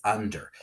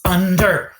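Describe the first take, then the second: First: Said in the usual way. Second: UN-DER, both beats loud and high; "Under" called loudly, syllable by syllable; pounded syllables. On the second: Shown as a demonstration. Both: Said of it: "Pound out the syllables".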